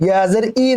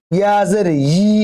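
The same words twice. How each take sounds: First: "ই" as a bare i with no y; y dropped. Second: "ই" as yi, with a drawn y before the vowel; y-glide onset. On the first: Teacher shows the mistake, bare i. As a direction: start the last "ই" straight on the vowel. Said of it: "ই যেন না হয়". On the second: Teacher shows correct ya, long yi. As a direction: press a y into the last "ই". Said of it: "ইয়া জের ই না". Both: Shown as a demonstration.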